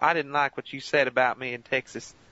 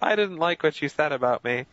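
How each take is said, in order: First: It is said with a southern drawl. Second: It is said without a southern drawl.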